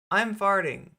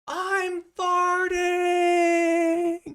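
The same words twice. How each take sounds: First: It is said in a calm, normal voice. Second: It is yelled loudly.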